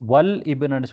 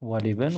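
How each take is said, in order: First: The L is silent, then a separate ibnu. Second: The L takes an i vowel, linking into bin. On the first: The speaker calls it wrong. "வல் இப்னு சொல்லாம" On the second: The speaker calls it right. "வலிபின் தான் நாங்க சொல்ல வேண்டி இருக்குது"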